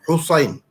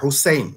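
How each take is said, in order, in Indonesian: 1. Bunyi s-nya berat, bertekanan. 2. Bunyi s-nya ringan, biasa. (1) "Kalau S H ni Sad, Sad" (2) "Bukan Hussein, bukan Sin"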